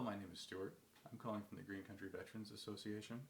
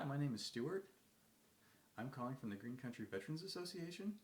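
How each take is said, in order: First: The pitch falls at the end of each sentence. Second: The pitch rises at the end of each sentence. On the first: The caller sounds like he's having a bad day. "Downward inflection. Better than upward inflection" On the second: The caller sounds unsure and needy. "with the upward inflection at the end of every sentence, making it sound like a question"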